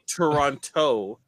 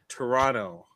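First: The second t is clearly pronounced. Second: The second t is dropped. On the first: The speaker calls it wrong. "It's not Toronto, like T-O-E" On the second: The speaker calls it right. "It's Toronto"

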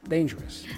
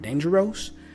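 First: The ending is a plain 'us' sound. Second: The ending is not a plain 'us' sound. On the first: The speaker calls it right. "once you learn us" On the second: The speaker calls it wrong. "my tendency would be to say ... or dangerous"

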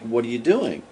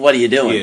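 First: It is asked in a gentle, soft tone. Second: It is asked in a harsh, accusing tone.

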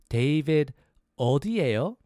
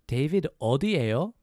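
First: It is said slowly. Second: It is said fast.

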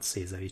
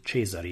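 First: The name is said with an English pronunciation. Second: The name is said with an Italian pronunciation. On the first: The speaker calls it wrong. "how I pronounce it in this weird English, not Cesari" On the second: The speaker calls it right. "Cesari in Italian"

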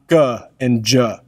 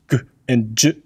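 First: The consonants are followed by added vowel sounds. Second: The consonants are clipped with no vowel after them. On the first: The speaker calls it wrong. "and not G and J" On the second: The speaker calls it right. "We teach G and J"

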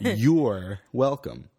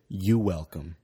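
First: The R in "you're" is clearly pronounced. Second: The R in "you're" is dropped. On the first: The speaker calls it right. "Say the R" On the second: The speaker calls it wrong. "I just say"

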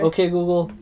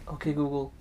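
First: It is said at a louder volume. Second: It is said at a quieter volume.

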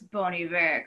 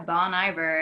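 First: The name is pronounced with French sounds. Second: The name is pronounced with English sounds. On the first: The speaker knows the band. The speaker calls it right. "no, it's Bon Iver, because it's like French" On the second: The speaker does not know the band. The speaker calls it wrong. "people that don't, like, know that band, they'll say it out loud"

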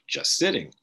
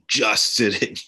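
First: The word just is not stressed. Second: The word just is stressed. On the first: The speaker calls it wrong. "they think it means like just sitting" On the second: The speaker calls it right. "the emphasis on the word just"

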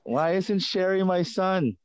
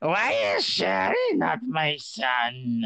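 First: It is said without the mom's accent. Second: It is said in an accented impression of his mom.

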